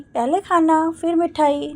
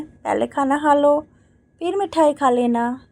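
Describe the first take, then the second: First: Light, higher childish mimic of mother; mimicking mother. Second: Said in the usual way. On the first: Daughter teasingly mimics her mother, higher childish mock. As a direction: playfully parrot the old woman's whine. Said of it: "Neeru ने माँ की नकल उतार कर कहा".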